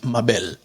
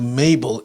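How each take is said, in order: First: The name is said with a Spanish pronunciation. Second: The name is said with an English pronunciation. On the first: It is a popular and beautiful name. "it's a very different pronunciation. It's Mabel" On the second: It sounds like a very old-fashioned name. "once you translate it into Mabel, it sounds like it's a one hundred fifty years old name"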